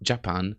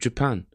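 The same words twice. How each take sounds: First: It is said in a non-native way. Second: It is said in a native way. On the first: The speaker calls it wrong. "When you're not a native speaker, sometimes you'll say" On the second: The speaker calls it right. "instead of"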